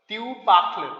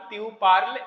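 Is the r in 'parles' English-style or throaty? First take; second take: throaty; English-style. First: The r is a throaty sound, like kh. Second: The r is a plain English-style r sound. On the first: The speaker calls it right. "French में आर को ख बोलते हैं" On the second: The speaker calls it wrong. "यदि आर को ख नहीं बोलोगे"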